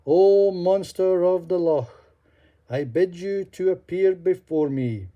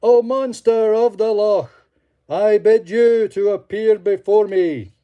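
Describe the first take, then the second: First: Calling aloud. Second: Loud, high ringing summons; loudest voice. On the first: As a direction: summon the beast across the water. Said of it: "and he said aloud". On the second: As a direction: cry out with full force. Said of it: "cried in his loudest voice". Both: Acted.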